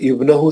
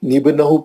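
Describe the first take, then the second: First: The word begins with an 'i' vowel. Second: The word begins with an 'n' sound. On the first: Reading resumes after a stop at the previous word. The speaker calls it right. "इब्नहू से इब्तिदा करेंगे" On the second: The linking sound is carried over after a stop. The speaker calls it wrong. "निबनहू पढ़ना गलत है"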